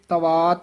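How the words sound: The syllables run together as one word. The speaker calls it wrong.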